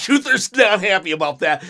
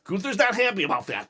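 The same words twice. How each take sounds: First: Said again much louder, with force; louder repeat for emphasis; louder emphatic. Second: Said in the usual way. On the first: Real, not acted. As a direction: punch it out to stress his anger. Repeated with emphasis after laugh.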